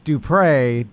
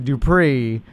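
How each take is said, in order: First: The last syllable rhymes with 'pray'. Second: The last syllable rhymes with 'free'. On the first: The speaker calls it right. "it's Dupre" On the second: The speaker calls it wrong. "Don't say Dupree"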